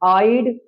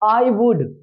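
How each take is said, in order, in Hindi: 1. यह एक संकुचित अक्षर के रूप में बोला गया है। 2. यह दो पूरे शब्दों के रूप में बोला गया है।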